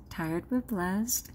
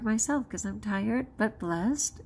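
First: Slow tender repeat. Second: Said in the usual way. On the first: Real, not acted. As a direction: linger gently on "tired but blessed".

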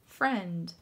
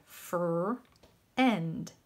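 First: Said in the usual way. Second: Fr-end split in two, the vowel stretched; teacher sounding out Fr-end for first graders; sounded out slowly. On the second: Shown as a demonstration. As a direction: break Fr-end into its sounds as if spelling by ear. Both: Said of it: "That's how it sounds".

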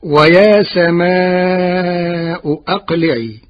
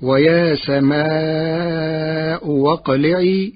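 First: Slow, chanted recitation of ويا سماء أقلعي; Quran recitation. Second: واقلعي with the second hamza turned to waw, said slowly; Warsh reading with waw. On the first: Acted. Teacher reciting the verse to his class, slow and chanted. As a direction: intone the verse slowly like tajweed. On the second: Shown as a demonstration. Teacher showing his students the Warsh reading, slowly, with a waw. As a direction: say واقلعي with a w glide in place of the glottal stop. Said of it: "بإبدال الهمزة الثانية واوا".

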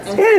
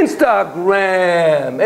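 First: A much higher, louder, quick word Instagram with a rising tune; eager reveal. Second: Instagram stretched very slowly with a rising tune; slow repeat. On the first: Lecturer to audience, revealing what young people use, eager. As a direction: pop out Instagram like a quiz answer. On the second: Lecturer to audience, repeating the answer slowly. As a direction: draw Instagram out, savouring it. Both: Acted. Answering his own question.

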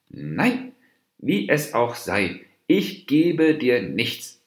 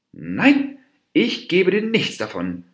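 First: Slow, firm refusal. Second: High, loud, heated refusal; angry snarl. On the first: Dwarf deer turns the monkey down, in a firm voice. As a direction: stand your ground, spacing the words deliberately. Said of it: "mit fester Stimme". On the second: Dwarf deer refuses the monkey any bananas, snarling angrily. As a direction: snap it out, pitched up and forceful. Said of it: "fauchte der Zwerghirsch". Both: A narrator's reading.

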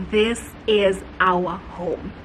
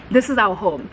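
First: Low and very slow, word by word; slow, weighty realisation. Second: Said in the usual way. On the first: Retold or imitated. Couple walking into the house, slow and certain. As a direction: stretch out each word of the verdict. Couple's verdict, said slowly then repeated.

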